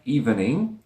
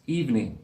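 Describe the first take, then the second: First: "evening" in three syllables, ee-ven-ing; spelled-out evening. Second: "evening" as eev-ning; two-syllable evening. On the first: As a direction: sound out "evening" as written. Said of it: "this word looks like evening". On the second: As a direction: say "evening" without the middle schwa. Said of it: "With two syllables, not three". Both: Shown as a demonstration.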